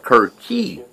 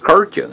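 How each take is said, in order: First: The name ends with an 'ee' sound. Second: The name ends with an 'uh' sound. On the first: The speaker calls it right. "It's Kirchi, not Kircha" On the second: The speaker calls it wrong. "I thought that was Kircha"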